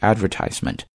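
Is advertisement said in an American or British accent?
American. It is said in an American accent. "American English"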